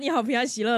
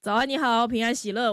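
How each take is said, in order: First: It is said in a bright, lively voice. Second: It is said in a flat, lifeless voice.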